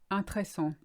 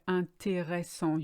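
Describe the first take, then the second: First: The middle syllable is skipped. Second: Every syllable is fully said. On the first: The speaker calls it wrong. "you skip the middle R E S" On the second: The speaker calls it right. "You kind of deconstruct the word"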